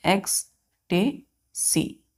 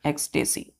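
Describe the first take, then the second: First: ecstasy very slowly in three pieces, "ex, ta, sy"; syllable by syllable. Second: Said in the usual way. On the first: Shown as a demonstration. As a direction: break ecstasy up with a pause after each syllable. Teacher sounds word out by syllable.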